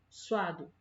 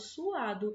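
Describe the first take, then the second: First: The two vowels are joined in one syllable. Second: The two vowels fall in separate syllables. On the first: The speaker calls it wrong. "eu não falo suado" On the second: The speaker calls it right. "Eu falo suado"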